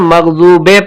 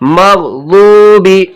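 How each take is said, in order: First: The word ends in an ay sound. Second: The word ends in an ee sound. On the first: The speaker calls it wrong. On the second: The speaker calls it right.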